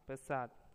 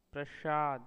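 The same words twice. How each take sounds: First: Said in the usual way. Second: प्रसाद said loudly as "prashaad"; overcorrected. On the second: Shown as a demonstration. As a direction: put "sh" for the s in प्रसाद. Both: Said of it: "वे उसे संस्कृताइज्ड".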